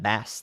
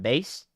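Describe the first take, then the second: First: The vowel rhymes with mass. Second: The vowel rhymes with face. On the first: It means the fish. "the fish" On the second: It means low musical sound. "crank the bass"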